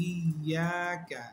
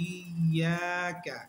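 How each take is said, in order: No difference in how they are said.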